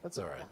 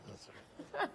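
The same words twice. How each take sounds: First: Said in the usual way. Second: Breathy laughing repeat. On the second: Real, not acted. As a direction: laugh it off softly. Laughs off being misquoted.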